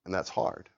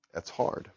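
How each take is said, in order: First: Said in the usual way. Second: Whispered softly, that's hard; hushed unvoiced that's hard, no voice at all. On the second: Real, not acted. Repeated line, whispered.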